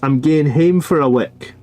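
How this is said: It is said in a broad Scottish accent. "In Scottish, you would say"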